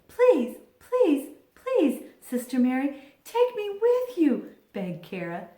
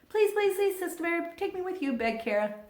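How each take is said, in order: First: It slows down with short pauses between phrases. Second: It runs on without pausing between phrases. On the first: The speaker calls it right. "So you should read it like this" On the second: The speaker calls it wrong. "instead of reading it like this"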